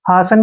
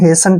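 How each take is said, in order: First: The first vowel is an open 'ah' sound. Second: The first vowel is an 'ay' sound. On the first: "हासन भी पढ़ सकते हैं" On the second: "लेकिन हेसन ठीक है"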